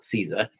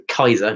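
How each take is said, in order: First: The word begins with a soft S sound. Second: The word begins with a hard K sound. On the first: The speaker calls it wrong. "not Caesar" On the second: The speaker calls it right. "all C's are K, so Kaiser"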